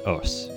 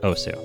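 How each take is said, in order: First: The word ends on s without a final vowel. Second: The word ends with a clear final u vowel. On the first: The speaker calls it right. "it is pronounced Os" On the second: The speaker calls it wrong. "a lot of people out there pronounce it Osu"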